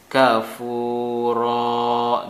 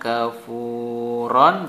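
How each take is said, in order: First: The word ends with a long open vowel. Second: The word ends with a nasal on sound. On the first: The reader stops at the end of the verse. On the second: The reader carries on without stopping.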